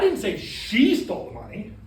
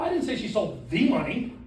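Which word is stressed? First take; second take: she; the. First: The stress is on "she". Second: The stress is on "the".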